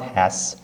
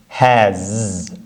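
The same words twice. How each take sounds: First: The word ends with a voiceless S sound. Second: The word ends with a voiced Z sound. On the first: The speaker calls it wrong. "It's not has" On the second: The speaker calls it right. "With the Z sound"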